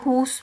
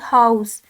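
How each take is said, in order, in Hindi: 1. स्वर एक गोल किया हुआ लंबा 'oo' है। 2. स्वर एक बिना गोल किया हुआ 'ow' डिफ़थॉन्ग है। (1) "हमने आगे लिप्स को गोल किया" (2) "हमें लिप्स को गोल करने की ज़रूरत नहीं होती थी"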